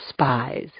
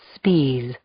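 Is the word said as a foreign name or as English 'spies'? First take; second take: English 'spies'; foreign name. First: It is said like the ordinary English word 'spies'. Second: It is said the way the man himself said it. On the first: The speaker calls it wrong. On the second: The speaker calls it right. "That's how he pronounced it"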